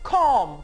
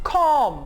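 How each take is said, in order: Both takes have the same delivery.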